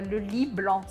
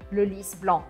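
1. O S no final de 'lys' é silencioso. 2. O S no final de 'lys' é pronunciado. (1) "se você falar assim, vai parecer que é a cama branca" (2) "Aqui é o nome da flor e por isso o S precisa ser pronunciado"

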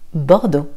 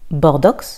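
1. Le X final est silencieux. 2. Le X final se prononce. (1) "le X est silencieux" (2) "Et non pas Bordeaux"

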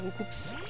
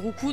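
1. Le nom se termine avec un son s. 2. Le nom se termine sans son s. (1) "Mais nous on le dit Roucoups" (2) "ça se dit Roucou normalement"

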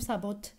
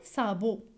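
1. Le mot se termine par un son t prononcé. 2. Le mot se termine par une voyelle, sans t. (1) "ما غاديش نقولوا صابوت" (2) "نقول صابو"

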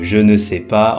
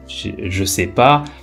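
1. Chaque mot est prononcé en entier, y compris ne. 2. Le ne tombe, les autres mots sont gardés.

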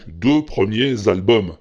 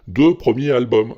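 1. Un son z relie premiers à albums. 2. Premiers s'enchaîne sur albums sans son z. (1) "Donc, deux premiers albums" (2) "tu fais pas la liaison du tout. Tu dis deux premiers albums. C'est moins joli"

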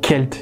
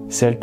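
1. Le mot commence par un son k. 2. Le mot commence par un son s.

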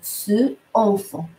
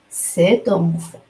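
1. Les deux mots sont prononcés sans t de liaison. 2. Un son t relie les deux mots. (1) "c'est un peu lourd. Lourd au niveau phonétique" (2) "on a ajouté ce T, c'est pour faciliter la prononciation"

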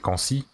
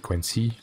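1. Le nom se prononce à la française. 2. Le nom se prononce à l'anglaise. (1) "tu fais Quincy à la française" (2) "Je le prononce à l'anglaise"

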